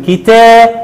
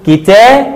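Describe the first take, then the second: First: كتاب ending in "-bun"; damma tanween. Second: كتاب ending in "-bin"; kasra tanween. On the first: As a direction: say كتاب as "kitaabun", higher. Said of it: "عند التنوين بالضم هنقول". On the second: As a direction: say كتاب as "kitaabin". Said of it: "وعند التنوين بالكسر هنقول". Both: Shown as a demonstration.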